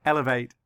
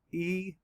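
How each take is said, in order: First: Said in the usual way. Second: "E-L-E-vate" broken into ee, el, ee, vate; syllable by syllable. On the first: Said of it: "say the word again". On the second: Shown as a demonstration. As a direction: say "E-L-E-vate" in separate, spaced chunks. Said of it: "Let's count the syllables".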